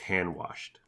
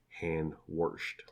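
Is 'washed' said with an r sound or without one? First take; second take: without r; with r. First: Washed is said plainly, with no r sound. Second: Washed is said with an r sound, like warshed.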